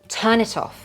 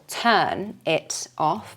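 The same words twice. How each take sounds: First: Each final consonant glides into the next vowel. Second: The words are said separately, not joined.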